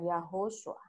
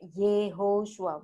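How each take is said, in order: First: The first vowel is an 'ah' sound. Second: The first vowel is an 'eh' sound. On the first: The speaker calls it wrong. "bukan Yahoshua" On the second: The speaker calls it right. "pakai Yehoshua"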